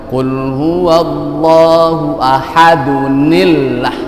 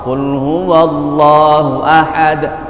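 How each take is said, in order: First: The last word links on with an added -un. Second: The last word stops short on the final d. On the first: The reciter continues into the next verse. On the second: The reciter stops at the end of the verse.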